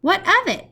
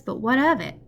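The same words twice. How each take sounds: First: Much higher, louder echo of her words; excited repeat. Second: Said in the usual way. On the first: A narrator's reading. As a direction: throw her question back eagerly. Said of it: "he repeated".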